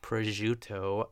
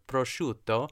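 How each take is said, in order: First: The word is said plainly, without exaggeration. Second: The word is said in an exaggerated, over-the-top way. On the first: This is how someone else said it. The speaker calls it wrong. "but it's not prosciutto" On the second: This is how the word should be said. The speaker calls it right. "you don't have to say it crazy like I just did"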